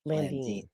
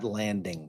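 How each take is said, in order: First: The name ends with an 'een' sound. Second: The name ends with an 'ing' sound. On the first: The speaker calls it right. "it's Eric Carter Landine" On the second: The speaker calls it wrong. "not landing"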